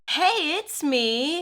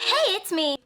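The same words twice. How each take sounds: First: It is said slowly. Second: It is said fast.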